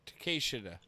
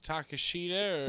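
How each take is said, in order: First: Takeshita as tuh-KAY-shi-tah; second pronunciation option. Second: Takeshita as tah-kah-SHEE-tah; first pronunciation option. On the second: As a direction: offer Takeshita with a long stressed "shee". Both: Shown as a demonstration. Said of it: "Is it Takeshita or Takeshita?".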